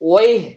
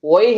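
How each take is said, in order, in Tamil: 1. இது 'wayh' என்று சொல்லப்படுகிறது, குவைத்தி பாணியில். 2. இது 'wayh' என்று சொல்லப்படுகிறது, குவைத்தி பாணியில்.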